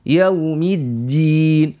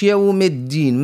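First: يوم with a full aw diphthong, slow; correct vowel. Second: يوم said as yam with no diphthong; wrong vowel. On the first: Teacher gives the correct يوم, slow and full. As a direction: give يوم its aw. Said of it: "لا". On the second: Teacher shows the mistake on يوم. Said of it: "ما نقولوش". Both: Shown as a demonstration.

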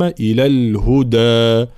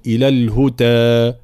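First: Slow إلى الهدى with firm د; full voiced stop on د in الهدى; correct voiced dal. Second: الهدى with د slipping toward ت; wrong weakened dal. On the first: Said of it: "الدال مجهورة وشديدة". («إلى الهدى» بدال مجهورة شديدة) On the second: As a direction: devoice the د in إلى الهدى, nearly a ت. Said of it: "بين الدال والتاء". («إلى الهدى» بدال بين الدال والتاء) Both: Shown as a demonstration.

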